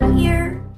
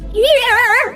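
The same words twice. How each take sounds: First: The word is said quietly. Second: The word is said loudly. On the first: "It comes out kind of quiet" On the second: "you're saying it louder now, it comes out so atrociously gross"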